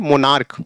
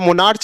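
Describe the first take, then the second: First: The word ends with a k sound. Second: The word ends with a ch sound. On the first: The speaker calls it right. "क्या पढ़ेंगे मोनार्क" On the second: The speaker calls it wrong. "यहाँ मोनार्च नहीं पढ़ेंगे"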